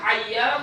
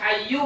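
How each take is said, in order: First: The word ends with an 'a' vowel. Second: The word ends with a 'u' vowel. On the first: "Mau baca hayya" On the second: "mau baca hayyu boleh"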